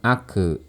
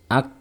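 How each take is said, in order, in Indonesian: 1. Huruf k dilepaskan dengan vokal pendek yang bergema. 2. Huruf k berakhir hanya dengan hembusan napas. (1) "kita tidak boleh mengkolkolahkannya. Jadi jangan ake" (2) "hanya terdengar suara nafasnya saja"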